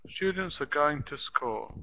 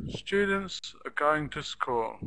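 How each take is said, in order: Both takes have the same delivery.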